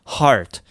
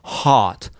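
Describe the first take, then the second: First: "heart" with open ah and a final r colour; American-style "heart", clear open vowel; bright American heart. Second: "heart" with a long open ah, no r; British-style "heart", vowel stretched; bright British heart. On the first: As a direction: curl the tongue at the end of "heart". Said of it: "入れても入れなくてもいい". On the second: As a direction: make "heart" a clear open sound. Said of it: "明るい音で". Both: Shown as a demonstration.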